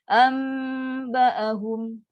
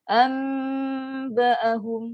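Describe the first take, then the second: The two takes are said the same way.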